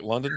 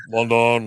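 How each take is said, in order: First: Said in the usual way. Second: London with a loud, full 'don'; mock over-pronounced London; exaggerated pronunciation. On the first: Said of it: "he was like". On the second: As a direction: hit both syllables of London, 'lon-DON'. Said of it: "No one says it like that".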